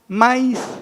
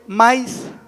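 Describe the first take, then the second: Both takes have the same delivery.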